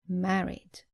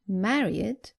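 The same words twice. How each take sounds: First: The ending adds no extra syllable. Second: The ending is pronounced as an extra 'id' syllable. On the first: The speaker calls it right. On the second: The speaker calls it wrong.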